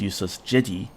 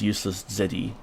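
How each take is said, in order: First: The second word starts with a zh sound. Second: The second word starts with a plain z sound. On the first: "like the Z H sound" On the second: "I have heard your name pronounced as"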